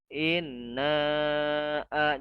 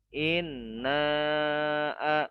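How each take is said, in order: The two takes are said the same way.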